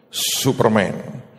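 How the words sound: The name is said with an English pronunciation. The bearer is trying to sound English.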